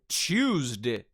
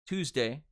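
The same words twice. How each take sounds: First: It is said in a British accent. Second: It is said in an American accent.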